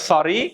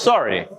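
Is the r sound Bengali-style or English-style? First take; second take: Bengali; English. First: The r is said in a Bengali way. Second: The r is said in an English way. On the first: The speaker calls it wrong. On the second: The speaker calls it right.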